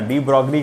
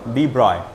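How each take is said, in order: First: The g is sounded, ending like 'broglee'. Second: The g is silent, ending like 'broy'. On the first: The speaker calls it wrong. "De ब्रॉगली करके अपन बोलते हैं, प्रोनाउंसिएशन गलत है उसका" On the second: The speaker calls it right. "डी ब्रॉय है ना"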